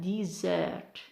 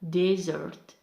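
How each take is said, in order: First: The stress is on the second syllable. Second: The stress is on the first syllable. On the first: It is used as a verb. "for verb we have desert" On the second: It is used as a noun. "For noun we have desert"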